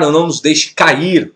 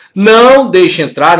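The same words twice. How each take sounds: First: Said in the usual way. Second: Não said loud and high; stress on Não. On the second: Shown as a demonstration. Teacher contrasting translations, Não punched loud.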